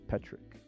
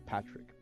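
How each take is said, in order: First: The first vowel sounds like 'pet'. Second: The first vowel sounds like 'pat'. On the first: This is how the name actually sounds. The speaker calls it right. "but I guess it's Petrick" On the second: This is how the name was long assumed to sound. The speaker calls it wrong. "I thought it was Patrick"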